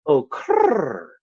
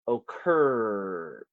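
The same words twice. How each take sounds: First: It is cooed with a rolled sound, like a pigeon. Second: It is said in a plain, ordinary voice. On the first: The speaker calls it right. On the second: The speaker calls it wrong.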